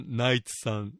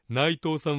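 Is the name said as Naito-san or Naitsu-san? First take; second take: Naitsu-san; Naito-san. First: The name ends in a 'tsu' sound. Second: The name ends in a plain 'to' sound. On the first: "ナイツさんって発音してください" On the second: "内藤さんはナイツさん"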